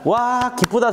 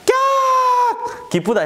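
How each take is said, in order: First: It is said with mild, calm joy. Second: It is said with loud, intense excitement.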